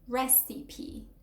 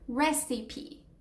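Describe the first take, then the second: First: The final E is sounded as a full syllable. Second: The final E is sounded as a full syllable.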